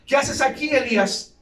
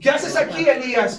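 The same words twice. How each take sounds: First: Raised stern question from God. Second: Higher, louder, insistent repeat of the question; God demanding. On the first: God questioning Elijah in the cave, raised and stern. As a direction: ask it like a demanding Lord. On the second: God pressing Elijah in the cave, louder and higher. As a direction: press the question harder the second time. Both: Retold or imitated.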